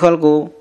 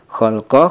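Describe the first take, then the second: First: The word ends with a u vowel. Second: The word ends with an a vowel. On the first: "Mana yang betul?" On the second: "Mana yang betul?"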